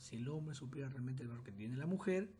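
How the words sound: There is a pause after 'mujer'.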